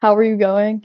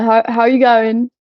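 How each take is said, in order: First: Said in the usual way. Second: Loud, drawn-out bad Australian accent; half-hearted Aussie greeting, stretched out and louder; attempted Australian accent. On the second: Shown as a demonstration. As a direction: have a clumsy go at an Australian accent, slipping towards British. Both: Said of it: "I can't do the accent".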